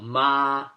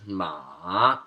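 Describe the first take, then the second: First: The pitch stays level and flat throughout. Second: The pitch drops and then rises again. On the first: It means mom. "the first tone is flat. You're speaking in a monotone" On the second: It means horse. "the third tone is going down and then back up"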